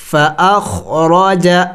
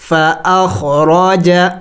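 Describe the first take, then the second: No difference in how they are said.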